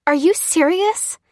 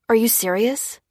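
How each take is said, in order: First: High, loud, drawn-out incredulous question; indignant, rising, slow challenge; outraged disbelief. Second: Mildly incredulous, rising question; raised, questioning disbelief. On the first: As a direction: demand it slowly, voice shooting up. Lucy outraged at the price. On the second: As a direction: ask it in mild disbelief, voice lifting at the end. Dan objects to being searched. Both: Acted.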